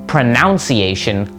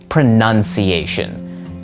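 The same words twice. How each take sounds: First: The second syllable sounds like 'noun'. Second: The second syllable sounds like 'nun'. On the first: The speaker calls it wrong. "not pronounced pronunciation like you might think" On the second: The speaker calls it right. "just with an N U N in the middle"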